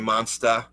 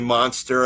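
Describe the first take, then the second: First: It is said in a Boston accent. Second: It is said in a standard American accent. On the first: "I would say monster because of, you know, my grandma had the accent" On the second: "I wouldn't say"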